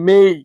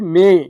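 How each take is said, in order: First: The vowel glides like 'ay'. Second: The vowel is a plain 'e' without a glide. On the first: The speaker calls it right. "সঠিক উচ্চারণ হবে মেই" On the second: The speaker calls it wrong. "আমরা বলছি মে"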